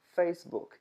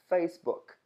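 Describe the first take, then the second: No difference in how they are said.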